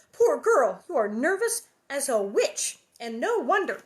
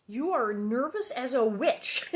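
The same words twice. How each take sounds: First: Louder, higher storybook mother; lightly voiced mother pitying a girl out loud; exclaiming Ma. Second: Slow, louder mock quoting of Ma; deliberate requote. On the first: A narrator's reading. Reading Ma's exclaimed line. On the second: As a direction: repeat it slowly, marvelling at the odd phrase. Apparently Ma just said.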